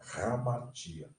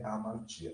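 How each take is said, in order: First: The word begins with an audible h sound. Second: The word begins directly with a vowel. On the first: The speaker calls it right. "Ela vai funcionar como o H do inglês" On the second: The speaker calls it wrong. "Não é amartia"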